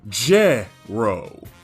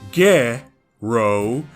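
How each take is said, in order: First: It starts with a J sound. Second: It starts with a hard G sound. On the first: The speaker calls it wrong. "as opposed to Je-ro" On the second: The speaker calls it right. "His name uses Ge-ro"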